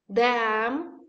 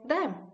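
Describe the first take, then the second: First: The word is said with a full vowel. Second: The word is said with a reduced vowel.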